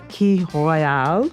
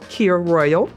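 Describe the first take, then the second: First: The drink name is said in a formal way. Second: The drink name is said in a casual way. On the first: This is how the name is properly pronounced. "I believe it was pronounced a Key Royale" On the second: This is how ordinary people say the name. "in regular people speak is a Kir Royal"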